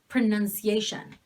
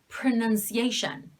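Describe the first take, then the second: First: The o is reduced to a schwa. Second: The o is reduced to a schwa.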